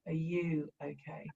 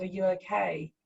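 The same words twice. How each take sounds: First: Softer and slower, gently handing the question back; soft slow echo. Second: Said in the usual way. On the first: Retold or imitated. The son in the dream answering his mother, a soft slow echo. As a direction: echo it quietly and slowly, turning it back on her. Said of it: "and he went". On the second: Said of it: "And I just said".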